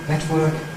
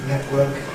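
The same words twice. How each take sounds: First: The T is made with the tongue tip. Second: The T is replaced by a glottal stop. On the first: "tongue-tip T" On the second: "glottal T"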